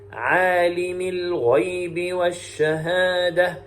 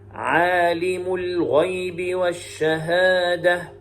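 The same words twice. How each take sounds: First: The first word ends with an i vowel. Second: The first word ends with a u vowel. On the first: It continues a description of the one before. "بكسر الميم" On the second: It is a new statement: he is the knower. "بضم الميم"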